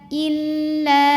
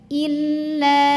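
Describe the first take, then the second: No difference in how they are said.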